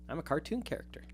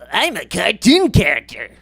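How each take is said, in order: First: It is said in his normal voice. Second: It is said in a cartoonish put-on voice.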